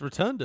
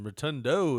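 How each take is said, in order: First: The name ends with an 'ah' vowel. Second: The name ends with an 'oh' vowel. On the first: This is the name's actual form. The speaker calls it right. "It's A at the end, not O" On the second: This is how many people say the name. The speaker calls it wrong. "Rotundo is what people call him"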